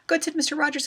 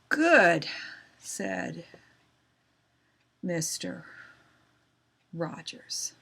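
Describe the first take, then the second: First: It is read very quickly. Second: It is read very slowly. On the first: "That's called reading too fast" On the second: "You can read too slow, and that's really boring"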